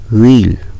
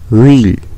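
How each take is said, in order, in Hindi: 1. यह एक छोटे अक्षर में सिमट जाता है। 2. यह एक छोटे अक्षर में सिमट जाता है।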